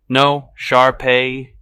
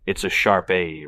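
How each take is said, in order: First: "Shar-Pei" drawn out slowly, loud and high; lisping correction. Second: Said in the usual way. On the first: Acted. Dog owner corrects a stranger's pronunciation, lisping "Shar-Pei". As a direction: correct them with a slow, raised, lisped "Shar-Pei". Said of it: "lisping, a way I've never heard it pronounced before". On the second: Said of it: "never heard it pronounced before".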